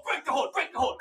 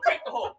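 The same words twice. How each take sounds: First: Said in the usual way. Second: "break the hold" jumps high, referee style; referee call. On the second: Retold or imitated. Mom as referee.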